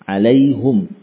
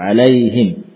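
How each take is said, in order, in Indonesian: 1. Vokal u setelah h, berakhir dengan m diam. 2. Vokal i setelah h, berakhir dengan m diam. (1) "Bidhammil ha" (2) "Sebagian mengusapkannya dengan seperti itu"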